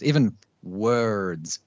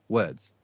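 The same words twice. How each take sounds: First: "words" stretched very slowly to its end; drawn-out "words". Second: "words" short, as a single sound; one-sound "words". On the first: Showing how a word is fully finished, "words" drawn out. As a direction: sound out every part of "words", slowly. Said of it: "we don't finish the end of words". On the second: Showing how Aussies say it, "words" as one sound. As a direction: say "words" quickly without working the ending. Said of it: "It's one sound". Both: Shown as a demonstration.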